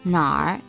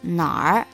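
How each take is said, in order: First: The R blends in as one sound. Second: The same.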